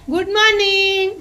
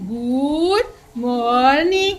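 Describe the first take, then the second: First: The words are said briskly without stretching. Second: The words are stretched out slowly. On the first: The speaker calls it right. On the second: The speaker calls it wrong.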